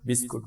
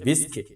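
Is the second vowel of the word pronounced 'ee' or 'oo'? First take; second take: oo; ee. First: The second vowel sounds like oo. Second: The second vowel sounds like ee. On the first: The speaker calls it wrong. "তোমরা অনেক সময় উচ্চারণে ভুল করে থাকো, বিস্কুট বলো।" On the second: The speaker calls it right. "এই শব্দটার সঠিক উচ্চারণ হচ্ছে বিস্কিট।"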